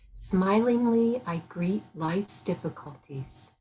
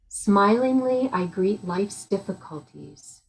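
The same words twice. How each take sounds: First: It is said more softly. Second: It is said fairly loudly. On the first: "Once more, a little softer" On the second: "First, more loudly"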